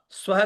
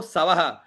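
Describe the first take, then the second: First: स्वह with s and v joined as one cluster; स्वह with no vowel between s and v; correct half consonant. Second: सवह with a vowel put in, sa-va-ha; सवह mispronounced without the sv cluster; wrong full consonant. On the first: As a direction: run the s of स्वह straight into va. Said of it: "व्यंजन आधे अक्षर को पूरा न बोले". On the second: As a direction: split सवह into three full syllables. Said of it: "न बोले". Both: Shown as a demonstration.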